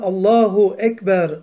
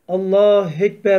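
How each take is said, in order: First: The vowel after Allah is kept, spoken deliberately. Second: The vowel after Allah is dropped, spoken quickly. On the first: The speaker calls it right. "esasında Allahu ekber ... Ayrı ayrı okumamız lazım. Tane tane" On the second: The speaker calls it wrong. "bazı böyle hızlı okuyan kardeşlerimiz Allah ekber, Allah ekber diyor"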